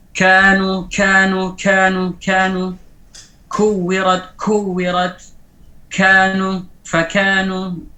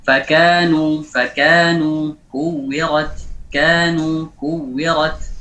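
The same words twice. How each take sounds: First: "kanu", "kuwirat" with too much air on the k; exaggerated hams. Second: "fakanu", "kuwirat" with only a modest puff on the k; moderate hams. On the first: Teacher shows the kaf mistake, exaggerated aspiration. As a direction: overdo the puff after each k in "kanu", held out on a level tone. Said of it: "Berlebihan memberikan hamasnya". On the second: Teacher models correct kaf for students, restrained aspiration. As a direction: keep the k's breath in "kanu" light, not overdone. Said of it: "tidak boleh berlebihan". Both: Shown as a demonstration.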